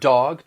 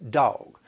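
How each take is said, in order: First: It has a plain General American vowel. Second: It has a drawled Southern diphthong vowel.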